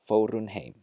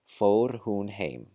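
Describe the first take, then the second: First: The h at the start of hún is dropped. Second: The h at the start of hún is pronounced. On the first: "with this rule applied" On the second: "with careful enunciation"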